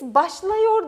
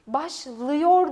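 First: The vowel after 'başl' is a wide 'a'. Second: The vowel after 'başl' is a narrow 'ı'. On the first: The speaker calls it wrong. "Bakalım biz başlıyor der miyiz? Hayır" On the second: The speaker calls it right. "Başlıyor deriz"

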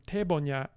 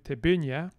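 First: The stress is not on the second syllable. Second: The stress is on the second syllable. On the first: "So then we go from tebunya" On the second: "stress to penultimate"

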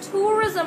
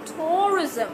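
First: The first vowel sounds like 'oo'. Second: The first vowel sounds like 'oh'. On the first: "there's a pronunciation that is tourism as well" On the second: "we have the O sound in here and you can also call it tourism"

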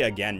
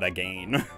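First: The second syllable sounds like 'gen'. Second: The second syllable sounds like 'gain'. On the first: This is the speaker's own usual pronunciation. "I say again" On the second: This is the British-sounding pronunciation that rhymes. "not again"

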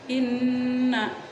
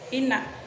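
First: The n sound is held with a nasal hum. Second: The n sound is short without a hum. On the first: The speaker calls it right. "nunnya itu didengungkan dulu" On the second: The speaker calls it wrong. "Jangan dibaca inna"

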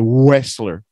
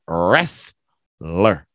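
First: The word begins with a W sound. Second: The word begins with an R sound. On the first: The speaker calls it wrong. "we don't say wrestler" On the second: The speaker calls it right. "So the W is silent. The T is silent. It's wrestler"

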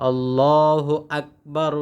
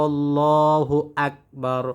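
No difference in how they are said.

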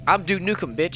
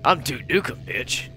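First: It is said in the speaker's ordinary voice. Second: It is said in a deep, gruff character voice.

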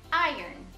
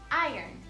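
No difference in how they are said.

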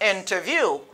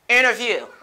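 First: The t after the n is pronounced. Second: The t after the n is silent. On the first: "c'est pas un problème si vous dites interview" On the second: "natif la même li souvent pas prononcer t"

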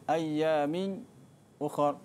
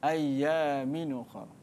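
First: A brief silent stop comes before 'ukhra'. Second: The nun flows straight into 'ukhra'. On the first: "Pertama dia baca dengan saktah" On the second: "dan dia baca dengan naqal"

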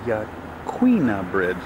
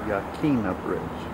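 First: The middle syllable sounds like 'kwee'. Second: The middle syllable sounds like 'kee'. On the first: The speaker calls it right. "This is the Yaquina Bridge" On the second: The speaker calls it wrong. "not the Yaquina Bridge. It is not Spanish"

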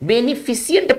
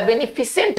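First: The ending sounds like 'see-ant', with an extra vowel. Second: The ending sounds like 'sent', with no extra vowel. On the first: The speaker calls it wrong. "पढ़ देते हैं जो कि गलत है" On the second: The speaker calls it right. "नहीं इसका बेनिफिसेंट होना चाहिए"

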